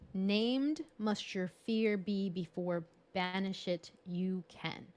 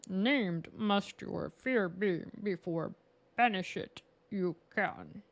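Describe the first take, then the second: First: It is said in the speaker's normal voice. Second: It is said in a Yoda impression.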